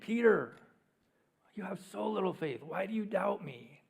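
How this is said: It is said in a frustrated, exasperated tone.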